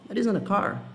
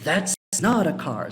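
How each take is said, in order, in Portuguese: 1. A negação é dita de forma simples, sem força extra. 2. A negação é dita com força, contrariando alguém. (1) "é simplesmente uma negação" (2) "Você está enfatizando que não é, para dar força"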